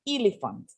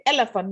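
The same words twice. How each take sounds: First: "elephant" starting with a long ee. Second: "elephant" starting with a short eh. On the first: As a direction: say "elephant" as EE-le-fant. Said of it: "not elephant". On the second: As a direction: say "elephant" as EH-le-fant. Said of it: "we say elephant". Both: Shown as a demonstration.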